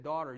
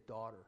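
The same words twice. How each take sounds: First: "Daughter." said plainly and firmly, a clear falling call. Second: Soft, tender call of daughter, said low and gentle; whisper-soft "Daughter." as a loving father would say it. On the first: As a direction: give "Daughter." a firm, direct fall. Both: Retold or imitated. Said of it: "in a very, very intimate manner".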